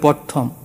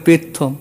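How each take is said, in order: First: It begins 'pra' with an 'a' vowel. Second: It begins 'pe' without the 'r' sound. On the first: "বলে প্রথম" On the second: "বলে পেথম"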